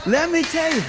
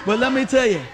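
First: Peak of the build, lean hard on "me"; climactic emphasis. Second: Said in the usual way. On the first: Real, not acted. Preacher builds repeated phrase.

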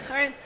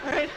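No difference in how they are said.

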